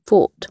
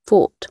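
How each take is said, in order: Both takes have the same delivery.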